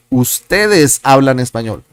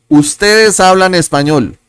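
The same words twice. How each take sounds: First: Said in the usual way. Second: Higher, emphatic model of "Ustedes hablan español"; model sentence. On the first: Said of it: "repeats at normal pitch". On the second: Shown as a demonstration. Teacher modelling the answer for students, emphatic and clear. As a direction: say it out clearly for the class. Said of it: "teacher models answer sentence".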